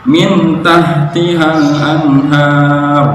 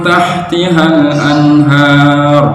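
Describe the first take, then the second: First: Slow min tahtihal anhar, n clear; izhar mistake. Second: Slow chanted tahtihal anhar, n blurred; ikhfa, hidden n. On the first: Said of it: "dia bacanya jelas, izhar". (min tahtihal anhar dibaca jelas) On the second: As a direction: blur the n in anhar. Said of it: "harusnya ikhfa". (tahtihal anhar dibaca samar) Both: Shown as a demonstration.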